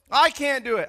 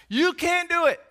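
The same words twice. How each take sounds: First: "I" punched louder at the start; stress on I. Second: "You" hit high and hard; stress on YOU. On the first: Preacher admitting he cannot please God either, stressing "I". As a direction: hit "I" hard, then let the rest fall. Turns the same words on himself. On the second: Preacher to congregation about confidence in flesh, stressing "You". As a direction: lean on "You", then fall away. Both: Real, not acted.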